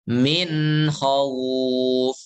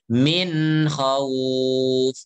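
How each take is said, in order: Both takes have the same delivery.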